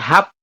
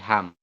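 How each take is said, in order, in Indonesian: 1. Suku kata ini diakhiri dengan bunyi p. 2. Suku kata ini diakhiri dengan bunyi m. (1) "kan harusnya hap ya" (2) "Tapi kita bacanya berubah jadi ham"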